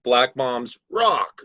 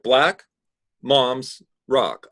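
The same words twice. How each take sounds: First: BLACK MOMS run together, then ROCK punched; stress on ROCK. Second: BLACK, MOMS, ROCK as three separate words, a pause after black; each word separate. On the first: Teacher showing student the wanted reading, emphatic ROCK. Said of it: "I wanna read". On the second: Teacher showing student the unwanted reading, choppy word by word. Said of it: "I don't wanna read it like". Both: Shown as a demonstration.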